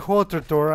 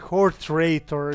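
First: The second syllable has no extra r sound. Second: The second syllable has an extra r sound. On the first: The speaker calls it right. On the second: The speaker calls it wrong.

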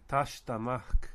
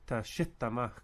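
First: The stress is on the first syllable. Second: The stress is on the second syllable. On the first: The speaker calls it right. "the emphasis stays on the ash" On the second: The speaker calls it wrong. "instead of"

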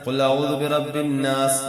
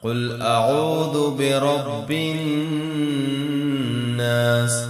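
First: The nasal n sound is short and unhummed. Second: The nasal n sound is held with a hum. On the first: The speaker calls it wrong. "ഇങ്ങനെ ഓതിപ്പോവാതെ" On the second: The speaker calls it right. "ഇതാണ് മണിക്കൽ എന്ന് പറഞ്ഞ ഈണം"

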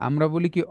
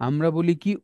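The two takes are said the same way.

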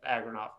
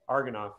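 First: The name begins with 'ag' followed by 'ra'. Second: The name begins with 'ar' followed by 'go'. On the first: The speaker calls it right. "I have a name that people always mispronounce" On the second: The speaker calls it wrong. "People always say Argonoff for some reason, but it is definitely not that"

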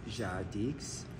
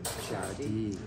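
First: The word ends with an audible x sound. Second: The word ends without any x sound. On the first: "Is it Jadix" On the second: "you don't pronounce the X"

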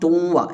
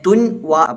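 First: The n merges into a doubled nasalized w. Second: The n is pronounced separately before the w. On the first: The speaker calls it right. "തുവ്വ എന്ന് പറയും" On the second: The speaker calls it wrong. "തുൻ വ പറയുന്നതിനു പകരം"

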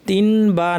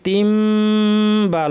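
First: The nasal before 'ba' is an n sound. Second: The nasal before 'ba' is a long m sound. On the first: The speaker calls it wrong. "তিন বা না পড়ে" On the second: The speaker calls it right. "আমরা পড়ব তিম বা, লম্বা গুন্না সহ"

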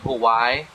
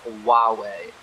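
First: It is said like the word Hawaii. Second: It is said like wah-way. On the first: The speaker calls it wrong. "I was always saying Hawaii, because that's the way it looks" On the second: The speaker calls it right. "which is actually pronounced Huawei"

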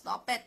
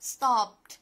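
First: The ending is said as an extra syllable. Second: The ending adds no extra syllable. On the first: The speaker calls it wrong. "เรามักจะอ่านกันผิดว่า" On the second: The speaker calls it right. "แต่จริงๆมันอ่านว่า"

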